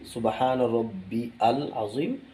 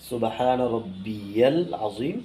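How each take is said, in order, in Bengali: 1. rabbi ও al আলাদাভাবে উচ্চারিত হয়, y ছাড়া। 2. rabbi, al-এর সঙ্গে y উচ্চারণ দিয়ে যুক্ত হয়। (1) "আমরা ভুলটি কি করি" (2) "সঠিক উচ্চারণটা কি"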